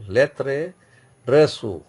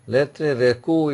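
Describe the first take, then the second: First: "reçu" as re-SU, with an s; valid soft C. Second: "recu" as re-KU, with a k; invalid hard C. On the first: Teacher giving another cedilla example, "reçu" with soft s. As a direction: say "lettre reçu" with the ç as s. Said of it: "Then another example". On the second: Teacher showing a missing cedilla, "recu" with hard k. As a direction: say "Lettre recu" slowly, hard k in recu. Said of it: "if I write recu". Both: Shown as a demonstration.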